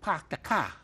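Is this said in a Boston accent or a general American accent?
Boston. It is said in a Boston accent. "you go to Boston"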